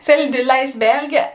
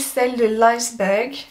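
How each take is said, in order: First: It is spoken with a French accent. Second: It is spoken with an English accent.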